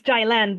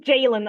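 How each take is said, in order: First: The name has its original Persian pronunciation. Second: The name has an Americanized pronunciation. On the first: The speaker calls it right. "it's Jaylan" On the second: The speaker calls it wrong. "every American I know says Jalen"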